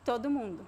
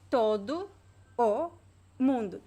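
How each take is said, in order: First: The vowels merge so it sounds like one word. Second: Each word and vowel is said separately.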